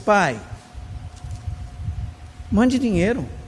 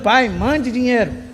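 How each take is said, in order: First: It sounds like a soft, gentle request. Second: It sounds like a harsh, bossy command.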